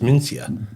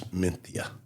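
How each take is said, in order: First: The middle consonant is an s sound. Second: The middle consonant is a th sound. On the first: "I never do it. It just mentally doesn't work when it's M E N C I A" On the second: "somebody told me it's supposed to be a T H sound"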